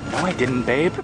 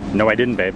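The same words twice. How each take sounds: First: It is said in a calmer tone. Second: It is said in an angrier tone.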